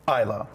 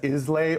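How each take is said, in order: First: It is pronounced the Scottish way. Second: It is pronounced the way it is spelled. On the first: The speaker calls it right. "That's how they pronounce it in Scotland" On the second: The speaker calls it wrong. "A lot of people mispronounce it as Islay"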